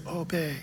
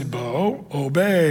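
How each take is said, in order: First: A tiny, much softer echo of the word; toddler echoing. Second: Put-on a calm, firm word to a little boy; lower, softer grown-up command; firm command to a toddler. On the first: Retold or imitated. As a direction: repeat "Obey." very softly like a small child. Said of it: "And he says". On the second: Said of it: "you just have to say".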